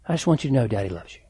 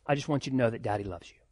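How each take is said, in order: First: Fast, gently lowered voice; a lightly hushed father's promise; tender reassurance to daughter. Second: Softer, quick hushed reassurance; a father's soft, quick "Daddy loves you"; tender whisper to daughter. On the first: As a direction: reassure her quickly and fondly. Father tells other daughter he loves her. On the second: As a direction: murmur it close, like a kiss on the head. Father tells daughter he loves her. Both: Retold or imitated.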